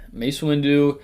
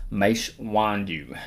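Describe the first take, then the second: First: Said in the usual way. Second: Drawn-out name; slow and dramatic. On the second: Pretend. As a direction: stretch each syllable out.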